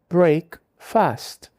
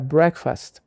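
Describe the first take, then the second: First: The first vowel is long, like in break. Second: The first vowel is short and flattened. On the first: The speaker calls it wrong. "deveria ser break fast. Mas, se você falar assim, nenhum nativo vai te entender" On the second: The speaker calls it right. "O som muda para breakfast, porque o inglês achata as vogais"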